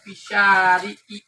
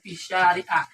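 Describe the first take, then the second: First: The word ends with an i vowel. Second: The word ends with an a vowel. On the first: The speaker calls it right. "kalimat setelahnya menjadi kasroh" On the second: The speaker calls it wrong.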